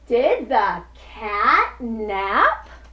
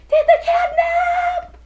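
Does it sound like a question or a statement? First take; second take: question; statement. First: It sounds like a confused question. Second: It does not sound like a question.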